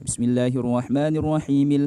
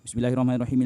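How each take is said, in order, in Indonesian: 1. Cepat, tapi vokal panjang dan konsonan ganda dipertahankan. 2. Sangat cepat, dengan vokal panjang dan konsonan ganda dihilangkan. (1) "membaca Al-Fatihah cepat tapi masih benar" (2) "tapi kalau cepatnya itu seperti ini"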